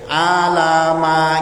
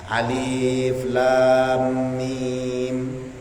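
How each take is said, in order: First: It is read as one running word. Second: It is read as separate letter names. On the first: The speaker calls it wrong. "Ini alama gitu Pak" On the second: The speaker calls it right. "dibaca berdasarkan bunyi huruf"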